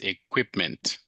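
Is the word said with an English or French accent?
English. It is said with an English accent. The speaker calls it right. "So gotta forget French a little bit"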